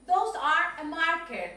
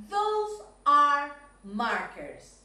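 First: Said in the usual way. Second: "Those are markers." slow and emphatic, "markers" with a clear s; correct model, slow. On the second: Shown as a demonstration. Teacher correcting a pupil's plural, slow and clear. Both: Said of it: "Ojo con la pronunciación de those".

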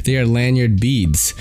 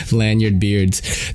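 First: "beads" said clearly with a long ee; corrected word. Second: "beards" said slowly as a mistake; wrong word. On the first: Vlogger correcting himself to "lanyard beads". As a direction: correct yourself to "beads", not "beards". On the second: Vlogger repeating his misreading "beards" slowly. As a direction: drawl out "Lanyard beards" as the misreading. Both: Shown as a demonstration.

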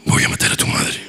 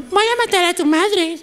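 First: Susurro grave y ronco; voz grave de muñeca. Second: Voz aguda de muñequita; voz de muñeca. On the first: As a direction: amenaza de muñeca poseída, susurrada. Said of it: "Una muñeca con voz grave". (muñeca poseída con voz grave) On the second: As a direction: chillona como muñeca de juguete. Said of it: "no habla como muñeca. Es como". (muñeca que amenaza con vocecita aguda) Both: Shown as a demonstration.

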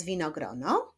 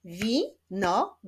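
First: Said in the usual way. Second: "Winogrono" slowly split into wi, no, gro, no; four separate beats on "Winogrono"; syllable by syllable. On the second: Shown as a demonstration. ("Winogrono" powoli sylabami: wi – no – gro – no) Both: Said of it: "Wyklaszczmy sylaby".

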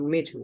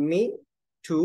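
First: "me to" joined as one word; words linked. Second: Said in the usual way. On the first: Shown as a demonstration. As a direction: run "me to" together without a gap. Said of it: "Me to call you".

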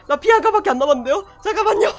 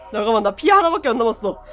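First: Faster, higher frantic plea; beg, rushing the words; panicked polite plea. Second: Panicked fast. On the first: Repeats louder, higher, polite. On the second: Panicking at low health. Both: Real, not acted.

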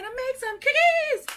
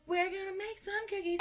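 First: High, bright-eyed hype for the cookies; excited announcement. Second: A quiet echo of the line; soft repeat. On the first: Hyping viewers up to make cookies, excited. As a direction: lift it up, thrilled to start. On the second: Echoing the cookie plan to viewers, hushed. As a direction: drop it down to near a whisper. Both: Real, not acted.

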